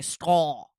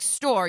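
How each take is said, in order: First: The r sound is replaced by another sound. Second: The r sound is said clearly. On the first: This is how someone with a speech impediment says it. The speaker calls it wrong. "you say stall" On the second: This is the usual way to say it. The speaker calls it right. "Instead of saying like store"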